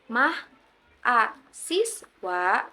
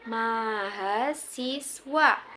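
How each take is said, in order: First: The word is broken after mah and a. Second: The word is said smoothly without breaks. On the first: The speaker calls it wrong. "bukan mah, a, siswa" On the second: The speaker calls it right. "Dibacanya mahasiswa"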